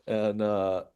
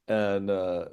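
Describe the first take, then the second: No difference in how they are said.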